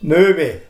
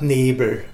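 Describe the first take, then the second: First: The first vowel is rounded, like ö. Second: The first vowel is unrounded, like e. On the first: This is the local dialect form. "sagt Nöwe" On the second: This is the standard form. "statt Nebel"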